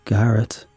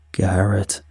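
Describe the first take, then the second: First: Understated, calm call of a name; composed, matter-of-fact calling. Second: Understated monster's growl of a name; lightly voiced monstrous growl. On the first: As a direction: say the name calmly. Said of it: "he said calmly". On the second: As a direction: growl the name with restrained menace. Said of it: "he growled". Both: A narrator's reading.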